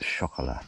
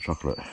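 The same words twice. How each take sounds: First: It is said with a French-style pronunciation. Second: It is said with a plain English pronunciation.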